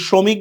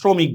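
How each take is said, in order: First: It begins with a plain s sound. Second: It begins with an sh sound. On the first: "এটা কি এস" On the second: "নাকি এস এইচ"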